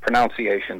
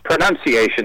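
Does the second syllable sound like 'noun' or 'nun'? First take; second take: noun; nun. First: The second syllable sounds like 'noun'. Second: The second syllable sounds like 'nun'. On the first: The speaker calls it wrong. "There's no O-U-N-C" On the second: The speaker calls it right. "it's spelled N-U-N-C"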